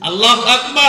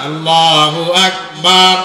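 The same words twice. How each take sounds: First: The final vowel of Akbar is kept short. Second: The final vowel of Akbar is stretched long. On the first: Allah is the greatest. The speaker calls it right. "আল্লাহ সবচাইতে বড়।" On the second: It turns into 'Allah is a drum'. The speaker calls it wrong. "আবার এইভাবে বলা যাবে না"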